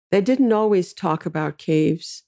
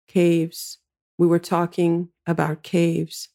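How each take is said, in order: First: Said in the usual way. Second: Scratchy sleepy voice. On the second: A narrator's reading. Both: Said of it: "sleepily answers in her scratchy, mostly bass voice".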